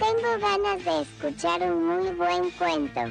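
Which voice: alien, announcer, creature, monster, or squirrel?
alien. It is said in an alien voice.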